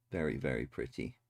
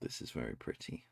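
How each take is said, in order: First: Said in the usual way. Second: Breathy hush of admiration; whisper. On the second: Real, not acted. Whispering admiration at a pretty picture. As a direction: whisper it in awe.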